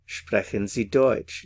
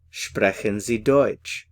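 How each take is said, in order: First: Said in the usual way. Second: Sprechen Sie Deutsch, said slowly and carefully; slow model phrase. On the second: Shown as a demonstration. Teacher modelling the phrase for learners, slow and careful. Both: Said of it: "So, do you speak German?".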